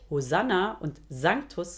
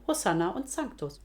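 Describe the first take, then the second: First: The s is voiced, northern German style. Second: The s is voiceless, Bavarian style. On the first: "weiter nördlich" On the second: "in Bayern"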